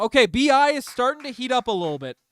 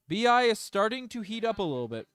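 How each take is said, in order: First: Higher and louder, riding the excitement of the shot; excited. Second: Said in the usual way. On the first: Real, not acted. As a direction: hype the player up. Excited reaction to a made shot.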